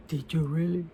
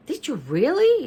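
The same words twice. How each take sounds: First: Soft, low mock huff; half-hearted huffy try after a sigh. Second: High-pitched doubtful question; doubting. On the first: Shown as a demonstration. Mother showing child what a huffy voice is, huffy. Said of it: "what's a huffy voice?". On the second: A narrator's reading. Leo challenging the girls' claim, doubting. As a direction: question them in a higher, doubting voice.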